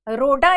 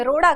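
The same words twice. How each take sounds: First: रोडा with a plain stopped ड, no flap; wrong plain ड. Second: रोड़ा with the tongue flapped down for ड़; correct flapped ड़. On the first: Teacher showing students the wrong रोडा, stopped ड. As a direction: say रोडा with a hard ड. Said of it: "रोडा इसे नहीं कहेंगे". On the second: Teacher giving students the right रोड़ा, flapped ड़. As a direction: flap the ड़ in रोड़ा. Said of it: "रोड़ा कहेंगे". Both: Shown as a demonstration.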